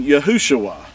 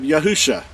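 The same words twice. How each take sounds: First: "Yahushua" said yah-hoo-SHOO-ah; vowel-pointed pronunciation. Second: "Yahusha" said yah-HOO-sha; pronunciation of Yahusha. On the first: Teacher citing the concordance's disputed name, Yahushua pronounced with shoo-ah. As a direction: end "Yahushua" in shoo-ah, two syllables. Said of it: "in order to get that pronunciation". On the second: Teacher putting Yahu and Shah together, Yahusha ending in sha. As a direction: end "Yahusha" on a plain sha. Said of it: "That's how it's pronounced". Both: Shown as a demonstration.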